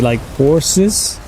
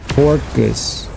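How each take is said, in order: First: The middle consonant sounds like an S. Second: The middle consonant sounds like a K.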